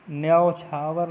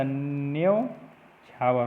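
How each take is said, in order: First: न्योछावर widened to "nyaa-o-chhaavar"; wrong pronunciation. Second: न्योछावर slowly as "nyo... chhaavar"; correct pronunciation. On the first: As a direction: add a vowel in the first syllable of न्योछावर. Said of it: "नहीं होता". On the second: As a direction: make one syllable of "nyo" in न्योछावर. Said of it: "होता है". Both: Shown as a demonstration.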